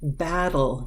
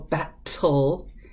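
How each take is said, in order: First: The middle T is a soft D-like flap. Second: The middle T is a crisp hard T. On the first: The speaker calls it right. "The T gets softened" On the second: The speaker calls it wrong. "You can't go battle. It, the tongue doesn't flow right"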